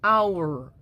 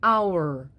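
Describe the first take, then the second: Both takes have the same delivery.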